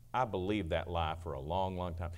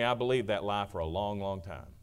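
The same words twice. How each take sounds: First: Quiet, heavy confession of the lie; softer regretful repeat. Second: Said in the usual way. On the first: Shown as a demonstration. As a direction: repeat it softer, letting it sink in. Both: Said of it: "It is a lie".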